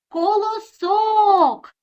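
The word is called out, stretching the stressed syllable. "треба покликати"

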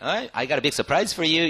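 The voice sounds happy and pleased. The surprise is a good one. "이런 식으로 happy하게 들리냐면"

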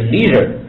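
It is said with an American accent.

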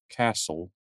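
It is said in an American accent. "castle in American English"

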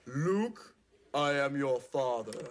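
It is said in a deep Darth Vader voice.

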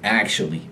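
It has an American accent with a short A. "a standard American speaker retains the short A"

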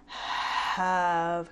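The word is said with lots of breathy air. "That's excess air"

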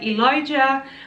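The name has a 'j' sound in the middle. "In the English language, people pronounce it like Elijah"

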